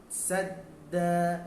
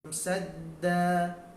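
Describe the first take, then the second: The two takes are said the same way.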